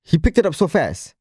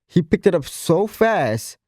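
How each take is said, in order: First: Said in the usual way. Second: Slow, drawn-out stress on "so fast"; emphatic repeat. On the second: Real, not acted. Praising his student's progress, "so fast" slowed and stressed.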